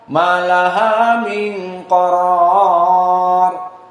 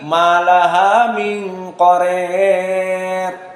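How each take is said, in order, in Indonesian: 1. Vokal terakhir adalah a terbuka biasa. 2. Vokal terakhir dibuat sangat condong ke i. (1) "qaror di fathah" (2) "Al-Imalah Al-Kubra Al-Kisai"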